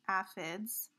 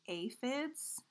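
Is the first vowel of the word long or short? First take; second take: short; long. First: The first vowel is short. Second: The first vowel is long. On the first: "the short vowel way" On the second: "the long vowel way"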